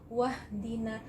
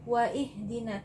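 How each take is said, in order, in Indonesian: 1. Kata-katanya menyambung tanpa hamzah. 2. Ada hamzah yang terpisah dan bunyi i memulai 'ihdina'. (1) "maka gugur hamzah wasalnya ini, jadi membacanya wahdina" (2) "Tidak ada yang membaca waihdina"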